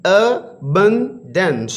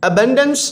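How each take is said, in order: First: "Abundance" very slow, in three separated syllables. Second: Said in the usual way. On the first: Shown as a demonstration. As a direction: say "Abundance" as a-bun-dance, pausing between parts. ("Abundance" کو تین حصوں میں ٹھہر ٹھہر کر) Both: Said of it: "ये भी three syllable words हैं".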